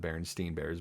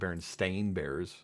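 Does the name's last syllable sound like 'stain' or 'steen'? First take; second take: steen; stain. First: The name's last syllable sounds like 'steen'. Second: The name's last syllable sounds like 'stain'. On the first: The speaker calls it wrong. "everyone remembers them being pronounced as the Berenstein Bears" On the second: The speaker calls it right. "it's actually pronounced the Berenstain Bears"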